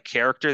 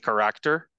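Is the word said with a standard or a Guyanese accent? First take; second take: standard; Guyanese. First: The word is said in a standard accent. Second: The word is said in a Guyanese accent. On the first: "Like character" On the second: "they say character"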